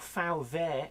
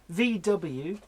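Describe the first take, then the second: First: The letters are said with German letter names. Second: The letters are said with English letter names.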